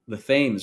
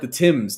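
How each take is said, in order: First: It is said the American way. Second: It is said the British way.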